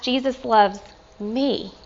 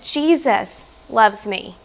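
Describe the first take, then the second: First: The stress falls on the word me. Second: The stress falls on the word Jesus. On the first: The love reaches someone undeserving. "And then last" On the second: It is the Creator himself who loves. "Sometimes I like to emphasize different words"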